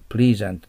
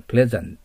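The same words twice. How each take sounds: First: "pleasant" with a long ee, as PLEE-zant; mispronunciation. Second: "pleasant" with a short e, as PLEZ-ant; short "eh" in the first syllable of "pleasant"; correct pronunciation. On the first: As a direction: stretch the first vowel of "pleasant" like "please". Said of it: "でないっていうことも頭に入れてください". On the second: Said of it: "pleasantでないっていうことも頭に入れてください". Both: Shown as a demonstration.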